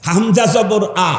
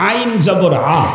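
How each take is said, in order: First: আ sounded as Arabic hamza. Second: আ sounded as Arabic ayn. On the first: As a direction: say আ from a plain hamza, drawn out. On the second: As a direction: say আ with the Arabic ayn, not hamza. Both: Shown as a demonstration. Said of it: "এই দুইটাকে পার্থক্য করে".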